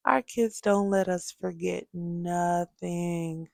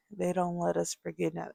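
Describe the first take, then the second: First: Slow, weighty statement; slow emphasis. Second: Fast, quieter throwaway repeat; fast aside. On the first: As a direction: lean on every word slowly. Emphatic point then quick repeat. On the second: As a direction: toss it off quickly under your breath. Quick repeat of the point. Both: Real, not acted.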